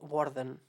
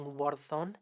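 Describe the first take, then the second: First: The final vowel is reduced to schwa. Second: The final vowel is a full vowel. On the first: The speaker calls it right. "just like schwa it away" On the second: The speaker calls it wrong. "instead of saying"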